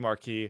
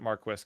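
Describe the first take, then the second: First: It is pronounced the standard French way. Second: It is pronounced the Canadian French way. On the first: "a French word that should be Marquis" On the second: "but they pronounce it Marquis"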